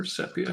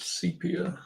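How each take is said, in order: First: Sepia said SEP-ee-uh, short e first; alternate pronunciation. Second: Sepia said SEE-pee-uh, long ee first; alternate pronunciation. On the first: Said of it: "however you choose to pronounce it". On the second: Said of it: "however you pronounce". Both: Shown as a demonstration.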